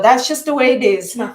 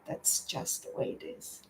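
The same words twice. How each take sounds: First: It sounds curt and dismissive. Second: It sounds soft, calm and gentle. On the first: The feelings are being brushed aside. The speaker calls it wrong. "I don't want to say" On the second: The feelings are acknowledged calmly. The speaker calls it right. "in a different, eh, the different voice"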